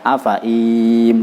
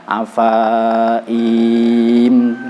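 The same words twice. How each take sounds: First: Only one of the two vowels is drawn out. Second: Both the fa and i vowels are drawn out. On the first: "atau dibaca afaim salah satu kali" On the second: "jangan dibaca afaim salah dua kali"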